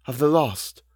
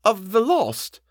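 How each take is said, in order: First: Said in the usual way. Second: High-pitched, hesitant question; faltering. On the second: A narrator's reading. Housekeeper asks about the tormented dead, high and faltering. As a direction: offer it up high, full of dread. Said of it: "she faltered".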